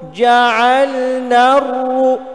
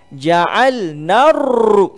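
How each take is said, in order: First: The r is trilled only briefly, short. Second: The r is trilled many times, long. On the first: The speaker calls it right. "Tasydid ni dua ra sebenarnya" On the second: The speaker calls it wrong. "Ja'al naru tu salah"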